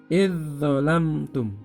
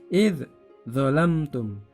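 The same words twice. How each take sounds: First: The dh sound flows directly into the next consonant. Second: The dh sound is cut off before the next consonant. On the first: The speaker calls it right. "langsung masuk pada huruf uh, dha" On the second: The speaker calls it wrong. "tidak boleh diputus, tidak boleh dibaca idzalamtum"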